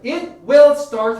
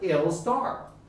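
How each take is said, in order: First: Both words of 'it will' are said in full. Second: 'It will' is shortened into one contracted syllable. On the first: "It will start 할까요?" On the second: "원어민은 뭐라고 해요?"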